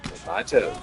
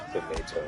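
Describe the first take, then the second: First: Tomato with a broad A, to-MAH-to; tomahto. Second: Tomato with a long A, to-MAY-to; tomayto. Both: Shown as a demonstration. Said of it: "potato, potato".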